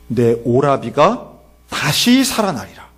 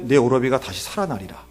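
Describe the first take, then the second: First: Slow, solemn declaration; Jesus's pronouncement. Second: Said in the usual way. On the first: Acted. Jesus promises Martha her brother will rise, slow pronouncement. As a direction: stretch it out with weight on 다시. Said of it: "예수님이 놀랍게도 이런 말씀을 하세요".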